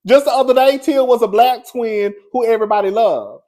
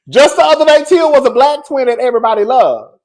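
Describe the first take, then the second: First: Excited. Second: Laughing. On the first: Exclaiming about fans turning. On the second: Vlogger marvelling at fans turning on Tia, laughing loudly. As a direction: repeat it laughing, higher and louder. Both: Real, not acted.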